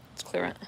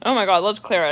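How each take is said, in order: First: Very soft murmur; hushed ritual murmur. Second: Said in the usual way. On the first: Real, not acted. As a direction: murmur it softly to clear the energy.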